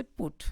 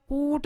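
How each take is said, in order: First: Said in the usual way. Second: पुट with a long, higher "oo"; wrongly lengthened vowel. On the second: Shown as a demonstration. Teacher showing students the mistake, पुट stretched long. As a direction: drag out the vowel in पुट, like "poot". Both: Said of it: "ज़्यादा लंबा नहीं खींचना है".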